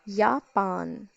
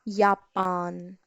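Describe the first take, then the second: First: It begins with a Y sound. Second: The same.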